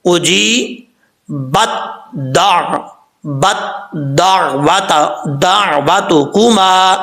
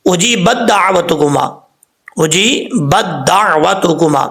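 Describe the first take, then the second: First: اجیبت with تا sounded then joined to the doubled دال, slow; correct tajweed. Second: اجیبت with ت not sounded, merged into دال; wrong way: اجیبت دعوتکما with the تا swallowed; wrong reading. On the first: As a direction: say اجی بت, then دا وات, slowly. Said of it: "کیسے؟". (درست: اجیبت میں تا ظاہر کر کے دال سے ملائیں) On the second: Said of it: "ایسا نہیں پڑھنا۔". (غلط: اجیبت دعوتکما میں تا ظاہر نہیں) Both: Shown as a demonstration.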